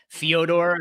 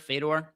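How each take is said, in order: First: The name is said with a Russian-style 'Fyo' sound. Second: The name is said with a plain English pronunciation. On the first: "really really Soviet with the pronunciation of his name" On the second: "I think it's pronounced Fedor"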